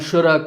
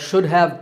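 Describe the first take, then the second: First: The words blend into one short reduced form. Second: Both words are said fully and separately.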